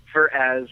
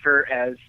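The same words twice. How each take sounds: The two takes are said the same way.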